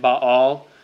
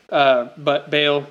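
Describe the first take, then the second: First: Both a vowels are said as open ah sounds. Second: The vowel is said with an anglicized sound. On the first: "the way the Hebrews would have said it" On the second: "that's the way I say it, it's easier"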